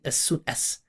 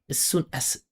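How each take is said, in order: First: The word 'as' ends in a hissing s. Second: The word 'as' ends in a buzzing z. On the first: The speaker calls it wrong. "I'm not saying" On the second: The speaker calls it right. "These are Z's. They're not s"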